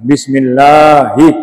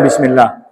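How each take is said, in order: First: The vowel in 'la' is long. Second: The vowel in 'la' is short. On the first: The speaker calls it right. "Lahnya itu harus dibaca panjang" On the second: The speaker calls it wrong. "Tidak boleh orang baca Bismillah"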